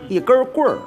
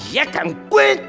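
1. 北京口音，带儿化音。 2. 陕西口音，声调全都往上走。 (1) "北京是带儿化音" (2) "全朝上走啊"

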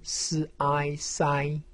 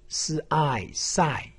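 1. 音高保持高而平。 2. 音高从高急剧降到低。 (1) "一声" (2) "四声"

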